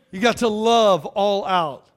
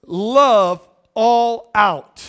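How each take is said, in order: First: Said in the usual way. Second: Very slow, stretched, weighty; slow emphatic refrain; drawn out. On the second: Real, not acted. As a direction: let each word hang. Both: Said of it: "here's the last one".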